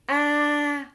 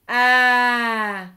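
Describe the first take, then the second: First: The pitch stays level throughout. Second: The pitch falls throughout. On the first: "le ton neutre, a, donc sans accent" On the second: "l'accent grave, a, affaissement du corps"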